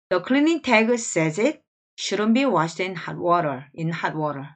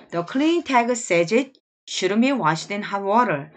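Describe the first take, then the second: First: Slow, calm second reading; slow repeat reading. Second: Slow, even reading of the whole sentence; slow model reading. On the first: Teacher repeating the sentence for students to copy. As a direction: read it again slowly for practice. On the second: Teacher reading each sentence twice for the class. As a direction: read it out slowly, word by word. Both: Shown as a demonstration. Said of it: "자, 두 번씩 갑니다".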